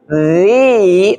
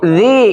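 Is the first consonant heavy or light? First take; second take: heavy; light. First: The consonant is heavy, with the tongue back raised. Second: The consonant is light, with the tongue back low. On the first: "Ya ini lebih tebal"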